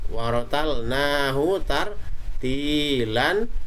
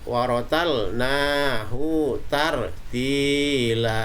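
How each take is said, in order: First: It ends with a short vowel plus n. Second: It ends with a long vowel, no n. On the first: The reading continues without stopping. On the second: The reading stops at the end of the verse.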